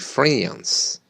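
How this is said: The vowel is a short, flat 'a' sound. "An American would say France"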